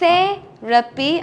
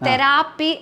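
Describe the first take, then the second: First: The stress is not on the second syllable. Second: The stress is on the second syllable. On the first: The speaker calls it right. "Actually English പ്രൊനൗൺസിയേഷനിൽ" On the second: The speaker calls it wrong. "ആയിലാണ് നമ്മൾ stress കൊടുക്കുന്നത്"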